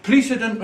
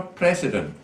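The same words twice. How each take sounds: First: "precedent" with a long ee: PREE-si-dent; Glasgow pronunciation. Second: "precedent" with a short e: PRESS-i-dent; Edinburgh pronunciation. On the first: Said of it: "in Glasgow it's precedent". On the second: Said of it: "in Edinburgh it's precedent". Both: Shown as a demonstration.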